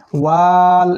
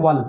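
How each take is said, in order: First: ওয়াল with a loud, long held "aa"; wrongly stretched vowel. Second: ওয়াল with a short "a" closed at once by "l"; no vowel lengthening. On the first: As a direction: drag out the "aa" in ওয়াল before the "l". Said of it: "এমন করে পড়তে হবে না". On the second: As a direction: go straight to the "l" in ওয়াল. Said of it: "আলিফ আর টানতে হবে না". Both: Shown as a demonstration.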